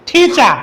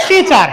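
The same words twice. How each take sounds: First: "টিচার" with puffed t and silent r; correct aspirated pronunciation. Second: "টিচার" with plain t and final r; no puff of air on "টিচার"; learners' usual pronunciation. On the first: Teacher modelling correct teacher, aspirated. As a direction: breathe out on the t of "টিচার". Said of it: "শুদ্ধ উচ্চারণ কি?". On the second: Teacher showing how we read teacher before, unaspirated. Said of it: "আমরা আগে কি পড়ে আসছি?". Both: Shown as a demonstration.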